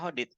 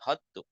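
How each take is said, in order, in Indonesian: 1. Kata hodit berakhir dengan konsonan t. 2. Kata hodit berakhir dengan tambahan vokal u. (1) "Bacanya hodit" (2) "enggak hotu"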